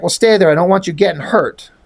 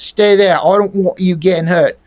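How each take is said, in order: First: Said in the usual way. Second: Mock London accent; British accent. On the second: Troll telling Julie to stay back, mock London accent. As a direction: redo it with dropped R's, London style.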